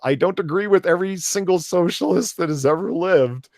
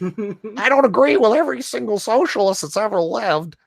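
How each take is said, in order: First: It is read in an ordinary speaking voice. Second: It is read in an exaggerated character voice. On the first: "I can't read this in my normal voice" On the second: "the neat LARPer voice"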